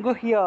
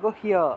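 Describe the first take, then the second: First: The word is said with Sanskrit pronunciation. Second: The same.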